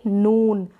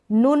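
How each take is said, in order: First: नून with the oo held long. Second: नून said as "nun", short u; the mistaken नून, vowel kept brief. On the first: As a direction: correct it to a long-vowel नून. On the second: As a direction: cut the oo of नून to a quick u. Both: Shown as a demonstration. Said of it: "नून नहीं".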